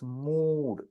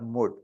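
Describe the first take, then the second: First: The vowel is long and stretched. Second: The vowel is short and clipped. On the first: The speaker calls it right. "it's elongated. It's long" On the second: The speaker calls it wrong. "it's not mood"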